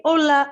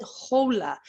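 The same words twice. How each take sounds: First: "Hola" starting straight on the vowel, louder and higher; silent H. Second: "hola" with an audible English H; wrongly sounded H. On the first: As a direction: say "Hola" as "ola", no H at all. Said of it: "H is always silent". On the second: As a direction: say "hola" as "ho-la", breathing out the H. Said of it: "Remember how I never said". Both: Shown as a demonstration.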